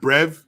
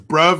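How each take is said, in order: First: The vowel sounds like 'eh'. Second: The vowel sounds like 'uh'. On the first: The speaker calls it wrong. "not brev. Sounds like brev with an E" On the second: The speaker calls it right. "So it's bruv"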